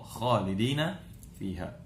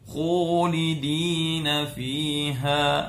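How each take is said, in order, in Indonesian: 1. Konsonan pertama itu tebal, berasal dari pangkal lidah. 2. Konsonan pertama dibulatkan terlalu berlebihan, bibir maju ke depan. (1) "Harusnya dia tebal" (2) "bibirnya terlalu monyong... terlalu berlebihan"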